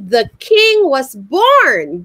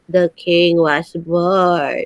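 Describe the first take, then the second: First: It is said in a very happy way. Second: It is said in a plain, flat way.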